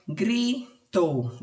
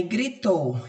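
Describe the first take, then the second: First: "gritou" split as gri, pause, tou; syllable by syllable. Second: Said in the usual way. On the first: Shown as a demonstration. Teacher separating the word for pupils to mark, "gritou" syllable by syllable. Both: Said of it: "palavrinha que já tiver separada".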